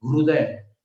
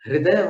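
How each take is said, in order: First: हृदय with an 'u', 'hruday'; hruday for हृदय, as the form to avoid; rejected u pronunciation. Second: हृदय with an 'i', 'hriday'; the recommended hriday for हृदय; correct i pronunciation. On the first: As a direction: say हृदय as 'hru-day'. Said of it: "न कि हृदय". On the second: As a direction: say हृदय as 'hri-day'. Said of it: "उसका उच्चारण हृदय होना चाहिए". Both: Shown as a demonstration.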